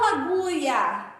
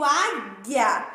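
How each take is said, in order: First: Agulha said as "a-GU-ia", with the u sounded; wrong pronunciation. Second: Said in the usual way. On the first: Shown as a demonstration. Teacher showing class what she does not say, mispronounced agulha with sounded u. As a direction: voice the u in agulha, making it "agúia". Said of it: "Eu não falo agulha". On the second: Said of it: "eu digo águia".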